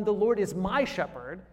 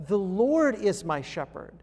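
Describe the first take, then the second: First: "The Lord is my shepherd" with my rising and stressed. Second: "The Lord is my shepherd" with Lord hit hardest; stress on LORD. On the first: Preacher showing the wrong emphasis, stress on my. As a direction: lift the word my, not Lord. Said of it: "the emphasis isn't on". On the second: Preacher showing where the weight falls, on Lord. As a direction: lean on the word Lord. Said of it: "The emphasis is on "The Lord". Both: Shown as a demonstration.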